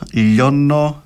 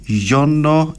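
First: It begins with a clear L sound. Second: It begins with a Y-like fricative sound. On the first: "με λάμδα" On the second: "με γάμμα"

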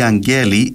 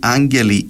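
First: The stress is on the second syllable. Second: The stress is on the first syllable.

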